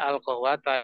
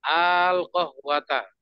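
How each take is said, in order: First: The opening vowel is short. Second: The opening vowel is drawn out long. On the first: The speaker calls it wrong. "itu bukan bacanya al-qawwata" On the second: The speaker calls it right. "Dipanjangkan alifnya itu"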